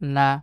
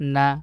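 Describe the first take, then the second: Both takes have the same delivery.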